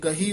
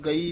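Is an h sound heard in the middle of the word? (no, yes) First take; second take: yes; no. First: An h sound is heard in the middle. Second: No h sound is heard in the middle. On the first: The speaker calls it right. "ਇਹ ਗਹੀ ਉਚਾਰਨ ਕਰਨਾ" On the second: The speaker calls it wrong. "ਚਰਨ ਗਈ ਨਹੀਂ ਕਹਿ ਦੇਣਾ"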